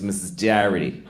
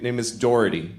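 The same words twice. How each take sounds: First: "Doherty" with a Boston vowel, like "Darity"; Boston-accented "Doherty", first vowel flattened; Boston mispronunciation. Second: Said in the usual way. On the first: Retold or imitated. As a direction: say "Doherty" as "DAH-rity", Boston style. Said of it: "she thought her name was". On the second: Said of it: "but she thought her name was".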